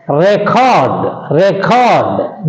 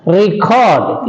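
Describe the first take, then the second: First: Record said "REK-ord", short e in the first syllable; record as a noun. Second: Record said "ri-CORD", i sound in the first syllable; record as a verb. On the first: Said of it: "that is a noun". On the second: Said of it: "it is a verb". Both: Shown as a demonstration.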